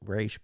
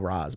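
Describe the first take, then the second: First: The name ends with an sh sound. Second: The name ends with an s sound. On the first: This is how the movie says it. "in the movie they, they went with Raish" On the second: This is how the speaker usually says it. "I always go Ra's"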